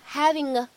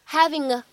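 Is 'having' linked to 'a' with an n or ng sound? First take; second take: ng; ng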